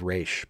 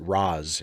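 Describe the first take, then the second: First: The name ends with an sh sound. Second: The name ends with a z sound. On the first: This is how the animated series says the name. "the correct pronunciation of his name" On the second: This is how the films say the name. "they pronounce it Raz in, instead of Raish"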